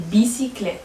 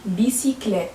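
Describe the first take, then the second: First: Said in the usual way. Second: بيسيكليت whispered, no voice at all. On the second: Shown as a demonstration. Teacher whispering the example word to the class. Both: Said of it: "teacher models the word twice".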